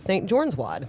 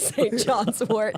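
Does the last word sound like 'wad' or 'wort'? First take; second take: wad; wort. First: The last word sounds like 'wad'. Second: The last word sounds like 'wort'. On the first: The speaker calls it wrong. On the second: The speaker calls it right.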